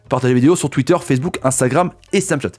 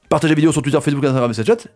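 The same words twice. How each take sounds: First: It is said slowly and clearly articulated. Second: It is said very fast.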